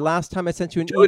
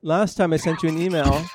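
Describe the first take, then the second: First: It is read in the speaker's normal accent. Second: It is read in a put-on Finnish accent.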